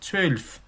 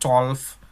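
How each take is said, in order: First: The vowel is a rounded ö sound. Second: The vowel is a plain o sound. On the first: The speaker calls it right. "Yang benar adalah zwölf. O umlaut e seperti itu" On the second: The speaker calls it wrong. "orang masih banyak salah ucap, orang bilang zwölf. Nah, itu nggak betul ya"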